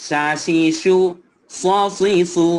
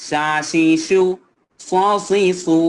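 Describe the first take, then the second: No difference in how they are said.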